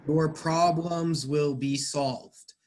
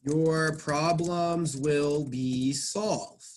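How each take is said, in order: First: Said in the usual way. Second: Slow dictation of the example; slow, careful example sentence; slow reading aloud. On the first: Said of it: "passive voice sentence here". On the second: Shown as a demonstration. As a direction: read slowly, word by word. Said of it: "let me show you another passive voice sentence here".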